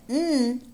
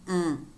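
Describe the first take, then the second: First: "mm" as a held N, tongue on the ridge; alveolar N sound. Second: "mm" as NG from the back of the tongue; velar NG sound. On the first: Teacher warning learners to separate sounds, "mm" as N. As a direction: say "mm" as the N of sin. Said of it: "pronounce the mm different from mm". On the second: Teacher contrasting two nasals, "mm" as velar NG. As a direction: say "mm" as the end of sing. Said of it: "different from mm". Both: Shown as a demonstration.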